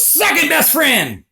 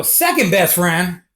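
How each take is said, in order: First: High, drawn-out retort; high-pitched emphatic comeback; calling out a correction. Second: Slow echo at normal pitch; drawn-out, puzzled repeat; questioning echo. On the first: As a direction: call it back over your shoulder, stretched out. Passerby turns and calls back correction. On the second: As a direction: repeat it back slowly, querying it. Teller echoes the man's words back. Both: Retold or imitated.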